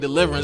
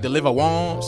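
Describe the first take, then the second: First: The name is said as the English word. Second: The name ends like 'wants', French-style. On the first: The speaker calls it wrong. "his name ain't Deliverance" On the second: The speaker calls it right. "It's like Deliver Wants"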